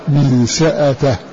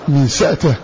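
First: The hamza is pronounced with a following vowel. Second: The hamza is pronounced without a following vowel.

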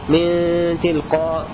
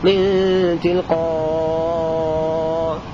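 First: The final long vowel is held briefly. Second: The final long vowel is held very long. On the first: "هذا قصر" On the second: "مد"

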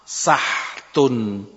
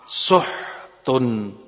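First: The s takes a; no vowel follows the h. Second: The s takes u; no vowel follows the h. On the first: "dengan fathahnya sin dan sukunnya ha" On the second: "Dibaca pula dengan sukunnya ha"

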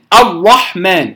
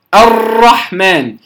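First: The r is hard and rounded toward the lips. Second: The r is rolled with many repeated taps. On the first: "كأنها تخرج من بين الشفتين" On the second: "فيبالغ في التكرير"

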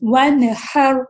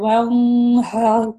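First: The n is pronounced clearly before the h. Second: The n is hidden and nasalized before the h. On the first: The speaker calls it right. "تو ہم ایکسپریس کریں گے" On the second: The speaker calls it wrong. "کیونکہ نون کو اس نے چھپا دیا"

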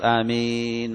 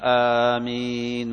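First: Only the second vowel, before the final n, is long. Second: The opening vowel after the glottal stop is long. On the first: "بأن تمد الياء فقط" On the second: "قيل بأن تمد الهمزة"

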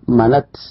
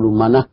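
First: The word ends with an unvowelled t sound. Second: The word ends with a soft h sound. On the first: "ويجوز أن تثبت التاء وتسكنه فتقول منت" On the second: "لكن تبدل هذه التاء هاء وتخف عليه فتقول منه"

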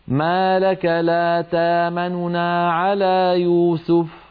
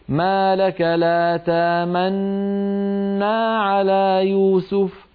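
First: Two n sounds are heard, the first quick and soft. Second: One merged doubled n sound is heard. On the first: "أن تنطقي نونين، الأولى منهما سريعة وصوتها منخفض" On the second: "بالنسبة للإشمام"

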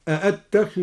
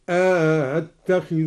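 First: Both hamzas are pronounced fully, with nothing inserted. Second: The second hamza is softened after an inserted vowel.

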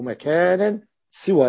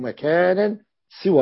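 First: The s is followed by an i vowel. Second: The same.

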